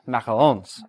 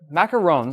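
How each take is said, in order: First: It is said with a French pronunciation. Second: It is said with an American pronunciation. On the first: "technically pronounced" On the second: "I'm just going to pronounce it the American way"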